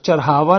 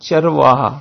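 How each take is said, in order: First: The consonants are swapped, giving 'charhava'. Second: The consonants are in order, giving 'charvaha'. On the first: The speaker calls it wrong. "चरहावा नहीं" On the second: The speaker calls it right. "चरहावा नहीं चरवाहा"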